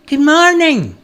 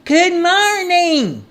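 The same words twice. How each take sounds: First: High, loud hail; calling out. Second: High, stretched-out call; louder shout. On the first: Stranger calling out to the woodcutter, calling out. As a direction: call out a greeting from a way off. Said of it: "he called out to Peter". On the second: Stranger shouting because he wasn't heard, louder shout. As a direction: holler it slowly to be heard. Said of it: "he shouted a bit louder". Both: A narrator's reading.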